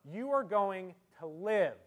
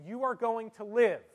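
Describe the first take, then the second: First: LIVE held apart after a pause, slow and dubious; finger quotes on LIVE. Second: Said in the usual way. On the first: Shown as a demonstration. Doctor tells a patient, slow finger quotes on LIVE. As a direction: set off "live" as if in quotation marks. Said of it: "but one, I'll use these". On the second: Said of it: "I'll say the same thing twice".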